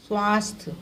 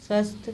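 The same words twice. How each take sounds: First: स्वास्थ्य with a long aa; long vowel form. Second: स्वस्थ with a short a; short vowel form. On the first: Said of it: "फिर शुद्ध रूप क्या है". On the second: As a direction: say स्वस्थ briefly as swasth. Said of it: "इनका अशुद्ध रूप क्या है". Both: Shown as a demonstration.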